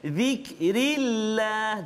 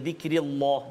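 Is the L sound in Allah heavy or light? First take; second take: light; heavy. First: The L in Allah sounds light and thin. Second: The L in Allah sounds heavy and thick. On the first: The speaker calls it right. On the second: The speaker calls it wrong.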